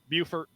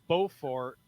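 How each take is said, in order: First: The name is said the South Carolina way. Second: The name is said the North Carolina way. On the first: This is how the South Carolina town is called. "South Carolina s- pronounces it Buford" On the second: This is how the North Carolina town is called. "They pronounce it Beaufort"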